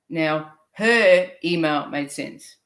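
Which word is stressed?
her. The stress falls on the word her.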